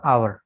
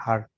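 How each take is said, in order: First: आवर said in two syllables, aa then wər, silent h; correct hour. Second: आर said like the letter R, one syllable, no w glide; wrong hour. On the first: Teacher giving the right way to say hour. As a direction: glide through आवर as aa-wər with no h. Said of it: "ये आवर ही होगा हमेशा". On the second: Teacher imitating students who say hour as आर. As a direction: say आर as plain ar, clipped to one syllable. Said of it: "बाज़ जगह आप सुनेंगे वो आर पढ़ते हैं". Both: Shown as a demonstration.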